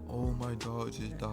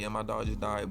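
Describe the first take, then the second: First: It is said in a sad tone. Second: It is said in a casual tone.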